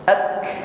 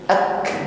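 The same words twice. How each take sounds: First: The k is released with only a soft breath. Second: The same.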